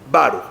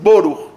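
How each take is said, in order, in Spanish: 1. La primera vocal suena como una 'a'. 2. La primera vocal suena como una 'o'. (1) "y los sefaradim, baruch"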